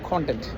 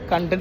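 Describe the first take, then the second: First: The first vowel is an open 'o' sound. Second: The first vowel is a short 'u' sound. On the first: It means the contents of something. "ഉള്ളടക്കത്തിന് കോണ്ടന്റ്" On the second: It means being satisfied. "സംതൃപ്തിയുള്ള അവസ്ഥയ്ക്ക് നമ്മൾ കണ്ടന്റ് എന്ന് പറയും"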